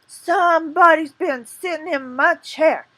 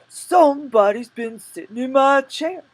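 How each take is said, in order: First: It is said in a medium-pitched bear voice. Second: It is said in a deep, gruff bear voice.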